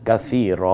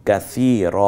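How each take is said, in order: Both takes have the same delivery.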